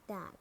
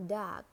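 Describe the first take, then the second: First: "dark" with a British silent R; British "dark", said dahk; British accent. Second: "dark" with a sounded American R; American "dark", curl the R before k; American accent. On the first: Teacher models dark for learners, British accent. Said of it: "in British English". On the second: Teacher models dark for learners, American accent. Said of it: "R in American English". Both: Shown as a demonstration.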